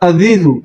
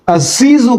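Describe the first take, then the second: First: It has a soft voiced th sound. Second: It has a buzzing z sound. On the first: The speaker calls it wrong. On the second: The speaker calls it right.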